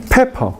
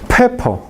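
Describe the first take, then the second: Both takes have the same delivery.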